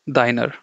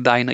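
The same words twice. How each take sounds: First: "deiner" with the final R pronounced; R sounded at the end. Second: "deiner" with the R dropped, ending in an open "uh"; silent final R. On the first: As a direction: say "deiner" as written, ending in an audible R. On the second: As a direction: say "deiner" like "dye-nuh". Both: Shown as a demonstration. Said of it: "You don't pronounce the R".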